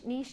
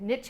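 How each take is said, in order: First: The word is said in a non-American pronunciation. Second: The word is said in an American pronunciation.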